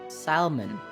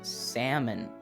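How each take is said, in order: First: The L sound is clearly pronounced. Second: The L sound is left silent. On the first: The speaker calls it right. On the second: The speaker calls it wrong.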